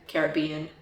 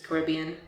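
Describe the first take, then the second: First: It is said the British English way. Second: It is said the American English way. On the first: "the British English is the Caribbean" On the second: "American English is Caribbean"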